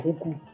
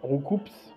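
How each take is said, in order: First: The name ends without any S sound. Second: The name ends with an audible S sound. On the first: The speaker calls it right. "le S, il se dit pas" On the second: The speaker calls it wrong. "c'est pas Roucoups"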